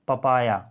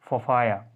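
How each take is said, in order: First: The p sounds are said without a puff of air. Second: The p sounds are said with a puff of air.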